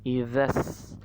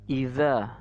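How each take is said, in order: First: The final vowel is short and linked on. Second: The final vowel is held long. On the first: "maka dia jadi pendek" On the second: "awalnya za-nya panjang ya, dua harokat"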